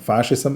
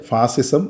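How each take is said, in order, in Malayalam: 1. നടുവിലെ വ്യഞ്ജനം 'sh' ശബ്ദമാണ്. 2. നടുവിലെ വ്യഞ്ജനം സാധാരണ 's' ശബ്ദമാണ്. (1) "ശരിയായിട്ടുള്ള ഉച്ചാരണം ഫാഷിസം" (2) "പലപ്പോഴും മലയാളികൾ ഇതിനെ തെറ്റിച്ച് ഫാസിസം"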